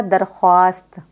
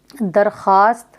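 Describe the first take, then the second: First: दरख्वास्त with the w sounded, darkhwaast; as written. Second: दरख्वास्त as darkhaast, no w; silent waw. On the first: Teacher showing the spelling, दरख्वास्त as darkhwaast. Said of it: "लेकिन लिखा क्या जाएगा?". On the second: Teacher repeating the reading, दरख्वास्त as darkhaast. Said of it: "हम पढ़ेंगे". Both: Shown as a demonstration.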